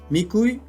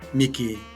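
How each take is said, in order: First: The word ends in the diphthong uy. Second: The word ends in a long i vowel. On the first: It is the standard form. "El diptongo uy" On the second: It is the Callejón de Huaylas regional form. "se adiptonga en i, también i larga"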